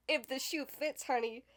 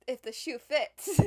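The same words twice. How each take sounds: First: Laughing it out, "honey" tacked on; chuckled sass. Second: Louder, slow, sassy punch. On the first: Shading her family, laughing sass. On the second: Throwing shade at her family, slow sassy jab. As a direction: drag it out with attitude. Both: Real, not acted.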